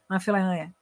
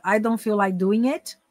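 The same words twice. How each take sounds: First: "I feel like doing it" mumbled into one blur; slurred slang version. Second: "I don't feel like doing it" slow, every word distinct; clear good English. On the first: Teacher shows the difference, "I feel like doing it" slurred together. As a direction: swallow the consonants in "I feel like doing it". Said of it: "Ó a diferença". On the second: Teacher shows the difference, careful clear "I don't feel like doing it". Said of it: "Good English". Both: Shown as a demonstration.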